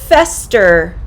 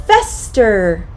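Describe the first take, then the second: The two takes are said the same way.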